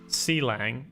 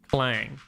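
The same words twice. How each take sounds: First: C is said as a separate letter name. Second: C is blended into one syllable, clang. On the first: The speaker calls it wrong. "So it's not C-lang" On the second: The speaker calls it right. "it's clang"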